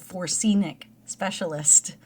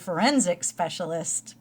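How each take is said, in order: First: The word is said as 'forsenic'. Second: The word is said as 'forensic'. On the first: The speaker calls it wrong. "what was the one I just learned I was pronouncing wrong?" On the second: The speaker calls it right. "but it's actually a forensic specialist"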